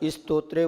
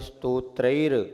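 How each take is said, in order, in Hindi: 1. यह एक जुड़े हुए इ स्वर से शुरू होता है। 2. यह सीधे एक कोमल स ध्वनि से शुरू होता है। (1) "एक अक्षर बढ़ जाता है तो छंद भंग होता है" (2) "आधा स को पहले साइलेंट रख के फिर तो से"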